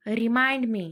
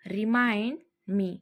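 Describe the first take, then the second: First: Said in the usual way. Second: Slowed-down repeat for learners; drawn-out teaching repeat. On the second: Shown as a demonstration. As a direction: say it slowly and clearly. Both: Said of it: "teacher repeats phrase twice".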